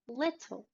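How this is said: British accent; the T is a crisp T. "and then the British English accent"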